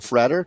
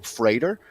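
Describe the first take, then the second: First: The first vowel sounds like the one in 'fret'. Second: The first vowel sounds like the one in 'freight'. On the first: The speaker calls it wrong. "rather than Fretter" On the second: The speaker calls it right. "he pronounces his last name Frater"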